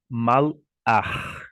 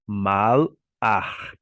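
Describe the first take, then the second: First: The word ends in a throaty ch sound. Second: The same.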